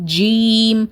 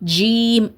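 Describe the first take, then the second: First: The lips are spread very wide. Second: The lips are spread very wide.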